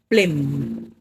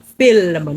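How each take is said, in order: First: The word is said the Jamaican way. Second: The word is said the standard way. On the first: The speaker calls it wrong. "not film" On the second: The speaker calls it right. "It is film. F I L M"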